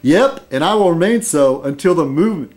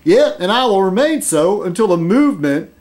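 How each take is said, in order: First: It is said in the speaker's plain accent. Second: It is said in a put-on southern accent.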